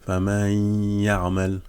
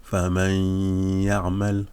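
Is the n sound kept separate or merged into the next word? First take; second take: merged; merged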